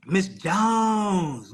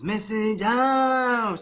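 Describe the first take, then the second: First: Said in the usual way. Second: Missus Jones stretched very slowly; drawn out name. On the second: Shown as a demonstration. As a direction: draw out Missus Jones, savoring each syllable.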